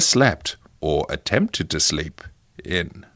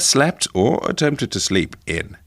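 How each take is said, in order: First: A long pause comes before the final word. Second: No long pause comes before the final word. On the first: "Do you think he left a long pause before in at the end?" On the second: "How's that?"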